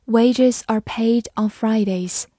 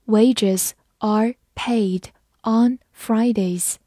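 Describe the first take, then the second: First: Said in the usual way. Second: Measured, with a gap after each word; slow read-along. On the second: Shown as a demonstration. Teacher reads along with students, slow read-along. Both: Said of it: "我们慢读一遍".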